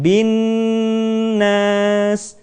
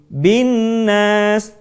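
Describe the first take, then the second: First: The nasal sound is held for several beats. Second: The nasal sound is rushed and short. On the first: The speaker calls it right. "Jadi tahan bin nas" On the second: The speaker calls it wrong. "Kita tidak membacanya dengan tergesa-gesa menjadi bin nas"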